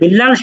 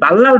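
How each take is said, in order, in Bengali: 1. প্রথম স্বরধ্বনিটি একটি 'i' ধ্বনি। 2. প্রথম স্বরধ্বনিটি একটি 'a' ধ্বনি। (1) "আমার নামটা সুন্দরভাবে উচ্চারণ করতে পারলো" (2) "আমরা যদি তার নামটাকে আমরা ভুলভাবে উচ্চারণ করি"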